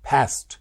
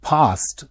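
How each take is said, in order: First: It is said in an American accent. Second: It is said in a British accent. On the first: "American వాడు ఫాస్ట్" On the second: "England వాడు ఫాస్ట్ అంటే"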